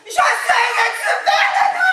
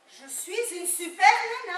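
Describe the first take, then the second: First: It is said very loudly. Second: It is said loudly.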